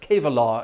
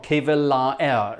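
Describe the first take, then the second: First: It is said in its real spoken form. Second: It is sounded out following its written letters. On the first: "is the way you pronounce it" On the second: "is the way it's uh, is spelled"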